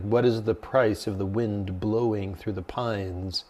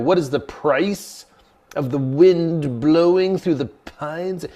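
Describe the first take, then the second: First: Low, soft, unhurried monk; slow, hushed recital of a riddle; monk posing a koan. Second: High, slow, incredulous echo of a riddle; mock-bewildered student repeating the question; baffled repeating. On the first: Retold or imitated. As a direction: pose a riddle quietly and slowly. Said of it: "he offered a koan. He's like". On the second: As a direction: puzzle over each phrase, voice raised. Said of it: "it doesn't even make sense".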